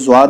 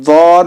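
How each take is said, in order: First: The first sound is a light z sound. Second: The first sound is heavy, lips rounded. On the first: The speaker calls it wrong. "ज़्वाद नहीं पढ़ना है" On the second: The speaker calls it right. "ये वौद है"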